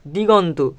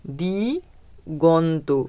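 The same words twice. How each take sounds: First: Said in the usual way. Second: Diganta stretched out very slowly, syllable by syllable; slow dictation. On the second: Shown as a demonstration. Teacher dictating the answer word to the class, very slow. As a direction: draw the word out so pupils can copy it.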